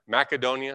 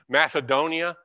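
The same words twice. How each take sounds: First: The C is pronounced as a hard k sound. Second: The C is pronounced as a soft s sound.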